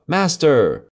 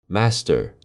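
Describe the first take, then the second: First: Loud, much higher alarm cry. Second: Second cry, less loud. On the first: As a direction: shriek a warning to the master. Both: Acted. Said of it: "the harp cried out".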